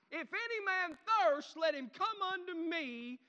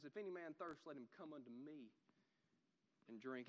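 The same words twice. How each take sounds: First: High, loud, slow shout; yelled cry. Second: Soft, low reading of scripture; hushed quotation. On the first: Preacher showing how Jesus cried out, loud passionate yell. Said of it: "he got up and yelled". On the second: Preacher repeating the words of Jesus to congregation, hushed and low. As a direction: bring the verse right down, quietly. Verse repeated softly, unlike shouted take. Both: Acted.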